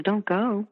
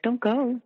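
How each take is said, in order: First: Higher, imitating his pleading; mock a man begging her to stay. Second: Put-on much higher, whiny little-kid plea; childlike pleading. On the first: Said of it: "did you hear the pleading there". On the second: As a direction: beg like a small child. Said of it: "like a little kid?".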